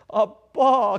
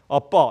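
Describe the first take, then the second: First: It is said in a coaxing, childlike voice. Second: It is said in a plain, adult voice. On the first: The speaker calls it right. "아빠 그래 어울려요" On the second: The speaker calls it wrong. "아빠 이건 어울리지가 않아요"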